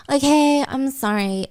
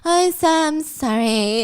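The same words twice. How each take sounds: First: Grudging apology, softening at the end; forced apology. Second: Slow, drawn-out whiny sorry; insistent forced apology. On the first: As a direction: give in to a demanding sister. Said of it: "my sister making me apologize". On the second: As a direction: drag out the apology to a nagging sister. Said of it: "Say you're sorry". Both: Acted.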